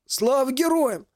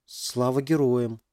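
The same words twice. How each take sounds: First: Slow, high rasping hail; hoarse veteran greeting. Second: Slow, unsure repeat of the greeting; half-questioning. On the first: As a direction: call it out like a worn soldier. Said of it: "услышал Максим хриплый голос". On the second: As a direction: try the words out, half asking. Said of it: "полувопросительно повторил Макс". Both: Acted.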